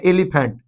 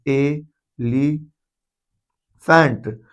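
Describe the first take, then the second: First: Said in the usual way. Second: एलिफेंट stretched very slowly, sound by sound; drawn-out pronunciation. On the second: Shown as a demonstration. Teacher to class, stretching एलिफेंट slowly to show its sound. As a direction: spell out एलिफेंट slowly so the opening vowel sound is clear. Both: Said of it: "इसको तो बोलते हैं एलिफेंट".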